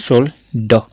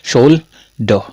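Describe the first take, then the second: Both takes have the same delivery.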